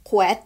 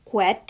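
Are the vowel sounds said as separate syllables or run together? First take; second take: run together; run together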